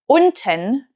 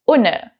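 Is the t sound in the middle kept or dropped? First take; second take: kept; dropped. First: The t sound in the middle is pronounced. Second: The t sound in the middle is dropped. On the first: This is standard German. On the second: This is the Hessian dialect.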